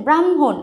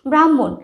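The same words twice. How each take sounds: First: ব্রাহ্মণ as "bram-hon", light h after m; ব্রাহ্মণ with audible h. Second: ব্রাহ্মণ loud, as "brammon", h nearly gone; ব্রাহ্মণ with reduced h. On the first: Teacher showing the h we usually reduce, ব্রাহ্মণ as bram-hon. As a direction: sound a small h in ব্রাহ্মণ. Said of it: "আমরা কিন্তু হয়ের উচ্চারণটা খুব কম করি". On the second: Teacher showing everyday speech, ব্রাহ্মণ with m dominant. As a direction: lean on the m in ব্রাহ্মণ, drop the h. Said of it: "হয়ের উচ্চারণটা খুব কম করি". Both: Shown as a demonstration.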